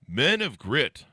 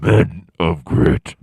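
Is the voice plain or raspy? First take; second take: plain; raspy. First: It is said in a plain, normal voice. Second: It is said in a rough, raspy voice.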